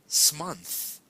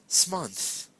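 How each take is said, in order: No difference in how they are said.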